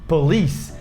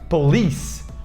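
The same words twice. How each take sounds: First: The stress falls on the second syllable. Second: The same.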